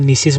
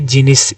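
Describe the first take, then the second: First: The word begins with an n sound. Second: The word begins with a hard g sound. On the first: The speaker calls it right. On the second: The speaker calls it wrong.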